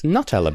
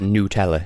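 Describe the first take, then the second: First: The first syllable sounds like 'nut'. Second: The first syllable sounds like 'new'. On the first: The name comes from the nuts it is made with. The speaker calls it right. "It's Nutella because it's made with hazelnuts" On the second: This is how Americans say it. The speaker calls it wrong. "Why do Americans pronounce it Nutella?"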